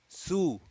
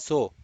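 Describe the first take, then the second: First: The vowel sounds like u. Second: The vowel sounds like o. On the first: The speaker calls it right. "rather than saying su" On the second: The speaker calls it wrong. "they will say na so"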